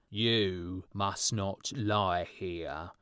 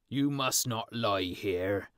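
First: Very slow, stretched-out stern call; drawn-out watchman's shout. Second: Slow, louder stern call from a watchman; watchman's shout. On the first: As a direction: drag each word of the warning out. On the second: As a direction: bark the order at the boys slowly. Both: A narrator's reading. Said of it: "shouted the watchman".

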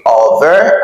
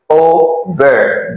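First: OVER said as the wrong example, rising at the end; OVER tossed up as what not to say; mispronunciation to avoid. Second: OVER in two slow, separate syllables, falling; slow, deliberate OVER with falling end; correct model pronunciation. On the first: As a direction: model the faulty OVER with a lifted ending. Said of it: "I don't say over". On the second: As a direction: break it O-VER slowly. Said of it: "I say over". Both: Shown as a demonstration.

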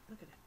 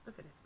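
Both takes have the same delivery.

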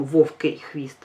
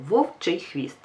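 First: Вовкий хвіст said with к, as the mistake; вовкий with к, not ч; wrong form. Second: Вовчий хвіст said with ч; вовчий with ч, calm and sure; correct form. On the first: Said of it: "Ми не кажемо". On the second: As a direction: say вовчий хвіст with a clear ч sound. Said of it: "ми кажемо". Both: Shown as a demonstration.

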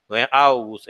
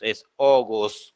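First: "August" with a Spanish au, like augus; the wrong take of "August", opening with au. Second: "August" slowly, opening with an o, like ogos; right way. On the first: Teacher showing students the wrong way: "August" with au. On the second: Teacher showing students the right way: slow "August" with an o. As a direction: draw out "August" starting on o. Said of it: "O, con O". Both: Shown as a demonstration.

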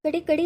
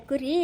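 First: Put-on ಕಡಿ with a child's ḍ in place of r; childish mispronunciation. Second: ಕುರಿ said clearly with u and r; correcting pronunciation. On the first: Parent repeats child's word for sheep, ಕಡಿ, mispronounced. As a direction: echo the toddler's ಕಡಿ for kuri. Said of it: "ಕಡಿ, ಕಡಿ ಅಂತೆ". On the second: Shown as a demonstration. Parent corrects child's word for sheep, clear ಕುರಿ. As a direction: model ಕುರಿ, "ku-ri", with a tapped r. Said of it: "ಕಡಿ ಅಲ್ಲ ಕುರಿ".

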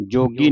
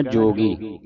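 First: "ਜੋਗੀ" with a shortened first vowel and hard g; short clipped jogi. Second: "ਜੋਗੀ" with a full, held o; long o in jogi. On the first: Teacher showing the mistake, "ਜੋਗੀ" with shortened o. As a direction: say "ਜੋਗੀ" quickly, cutting the long o short. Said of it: "ਜੋਗੀ ਨਹੀਂ ਕਹਿਣਾ". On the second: Teacher modelling the reading, "ਜੋਗੀ" with long o. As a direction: say "ਜੋਗੀ" letting the o run long. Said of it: "ਇਸ ਨੂੰ ਕਹਿਣਾ ਜੋਗੀ". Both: Shown as a demonstration.

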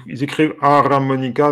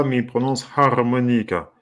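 First: Harmonica read letter by letter as "a-ra-monica", with an extra a between r and m; spelling pronunciation. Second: Harmonica said smoothly as "ar-monica", no extra vowel; actual pronunciation. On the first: Showing viewers how the Bengali spelling reads, harmonica sounded out as a-ra-monica. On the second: Telling viewers how Bengali really says it, a smooth ar-monica. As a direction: say harmonica the normal way, ar-mo-ni-ca. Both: Shown as a demonstration.

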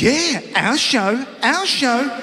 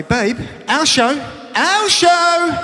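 First: Slow, higher, eager echo; excited. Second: Slow, rising, higher and louder chant; excited. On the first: Wife answering husband about their show, slow eager echo. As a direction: echo him with playful glee. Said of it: "And she goes". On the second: Husband calling wife to their show, slow excited chant. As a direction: build it up like a gleeful chant. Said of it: "I say". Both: Retold or imitated.

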